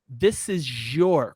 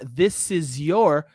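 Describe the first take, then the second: First: The words join with a J-like sound. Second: The words are separate, with no J sound. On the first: "com som de J" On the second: "Ao invés de falar"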